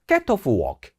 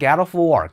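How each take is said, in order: First: Said in a British accent, sounds crisp and separate. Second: Said in an American accent, sounds running smoothly together. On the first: "영국 발음으로 조금 딱딱해져요" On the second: "미국 발음으로는 방금 했던 것처럼 get off work 되게 부드럽게 들어가는데"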